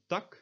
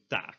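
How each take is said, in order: First: "tak" with a short lax vowel. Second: "taak" with a long tense aa; tense vowel. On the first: Teacher shows learners the lax vowel, short "tak". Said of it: "lax version". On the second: Teacher shows learners the tense vowel, long "taak". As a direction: draw out the open vowel in "taak". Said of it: "and the tense version". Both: Shown as a demonstration.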